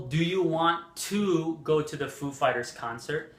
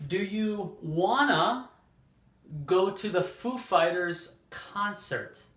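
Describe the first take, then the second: First: WANT TO kept as two words; clearly voiced "to" in "want to"; full form. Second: Slow model question with WANNA as one word; "wanna" run together, drawn out and higher; teacher's slow, clear "wanna" example; reduced spoken form. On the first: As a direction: say "want to" unreduced. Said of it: "It's possible". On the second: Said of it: "more common in spoken English to say". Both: Shown as a demonstration.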